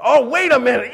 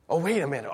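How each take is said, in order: First: Higher, louder "wait a minute"; mock dawning idea; sudden realization. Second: Said in the usual way. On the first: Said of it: "hungry crowd realizing". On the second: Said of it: "first quiet take".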